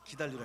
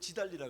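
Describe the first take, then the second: First: The word begins with a 'g' sound. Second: The word begins with a 'j' sound. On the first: The speaker calls it right. "기다리라 했지" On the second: The speaker calls it wrong. "내가 언제 지달리라 그래서"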